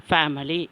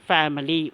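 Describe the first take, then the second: The two takes are said the same way.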